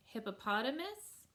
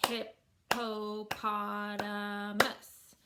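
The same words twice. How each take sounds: First: Said in the usual way. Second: "hippopotamus" very slow, hip-po-pot-a-mus; five drawn-out separate beats on "hippopotamus"; syllable by syllable. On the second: Shown as a demonstration. Teacher clapping a five syllable word, "hippopotamus" split into five beats. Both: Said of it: "five syllable word".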